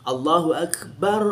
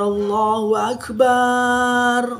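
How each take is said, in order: First: The final 'bar' has a short vowel. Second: The final 'bar' has a drawn-out vowel. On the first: The speaker calls it right. "Itu benar" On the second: The speaker calls it wrong. "itu sering dibaca panjang ... itu salah"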